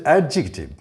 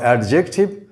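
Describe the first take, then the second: First: "adjective" with a short I after the J; correct pronunciation. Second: "adjective" with a full E after the J; wrong pronunciation. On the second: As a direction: say "adjective" as ad-JEK-tiv. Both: Shown as a demonstration. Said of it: "not adjective".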